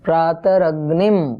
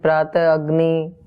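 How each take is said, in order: First: The word ends with an m sound. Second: The word ends in a plain vowel. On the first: The speaker calls it right. "जो बिंदी है ऊपर वो मकार है" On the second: The speaker calls it wrong. "अग्नि नहीं है"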